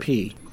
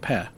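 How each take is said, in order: First: The syllable ends with an 'ee' vowel. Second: The syllable ends with an 'eh' vowel. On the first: The speaker calls it wrong. "not P" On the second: The speaker calls it right. "Pe, not P. ... P-E-H"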